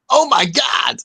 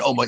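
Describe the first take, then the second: First: Put-on American accent. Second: Said in the usual way. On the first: Host imitating the American reactor, mock American shout. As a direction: blurt it out like an amazed American. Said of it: "he was going". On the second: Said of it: "he wasn't going".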